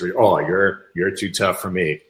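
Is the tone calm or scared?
calm. The voice sounds calm and lightly amused. The speaker is defusing the threat with humor. The speaker calls it right. "I said that in a different voice"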